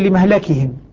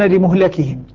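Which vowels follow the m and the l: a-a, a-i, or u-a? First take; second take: a-a; u-a. First: The m takes 'a' and the l takes 'a'. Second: The m takes 'u' and the l takes 'a'. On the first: "شعبة يقول لمهلكهم" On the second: "الباقون لمهلكهم"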